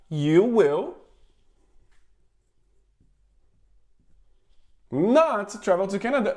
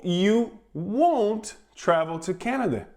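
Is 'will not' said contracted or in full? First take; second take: full; contracted. First: Will not is said as two full words. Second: Will not is contracted into one syllable.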